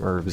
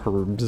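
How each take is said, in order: First: The word begins without an h sound. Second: The word begins with an h sound.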